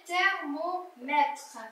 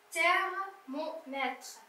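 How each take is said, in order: First: Thermomètre said very slowly and clearly; teacher slowly modelling thermomètre; slow modelled reading. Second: Thermomètre drawn out very slowly and softly; teacher softly repeating Thermomètre; slow soft modelled reading. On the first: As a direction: stretch out thermomètre for the pupil. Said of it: "teacher models word slowly". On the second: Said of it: "teacher repeats word slowly". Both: Shown as a demonstration.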